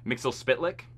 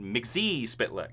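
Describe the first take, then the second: First: The first part is said as Mixel. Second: The first part is said as Mixie. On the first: This is the original pronunciation. The speaker calls it right. "which is actually how you say it" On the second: This is the show's changed pronunciation. The speaker calls it wrong. "in their universe they called it"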